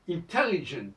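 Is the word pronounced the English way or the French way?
English. The word is pronounced the English way. Speakers do not count the word as French. "c'est pas du tout français"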